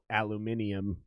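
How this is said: It is said the British way, with five syllables. "they invented a- aluminium over there"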